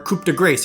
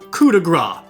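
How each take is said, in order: First: It is said with an anglicized pronunciation. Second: It is said with a French pronunciation. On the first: The speaker calls it wrong. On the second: The speaker calls it right.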